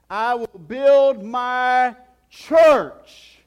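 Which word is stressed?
church. The stress falls on the word "church". "And then he says this"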